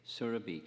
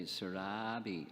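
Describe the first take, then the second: First: Surabhi stressed up front, SUR-uh-bee; correct name pronunciation. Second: Surabhi drawn out on the middle, sur-RAAH-bee; Chinese-style mispronunciation. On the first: Speaker shows how you pronounce her name, SUR-uh-bee. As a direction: say Surabhi with a quick, light middle vowel. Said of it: "that's how you pronounce her name". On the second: Speaker mimics how China says it, long sur-RAAH-bee. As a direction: stretch and stress the "RAH" in Surabhi. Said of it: "in China, they always say it". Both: Shown as a demonstration.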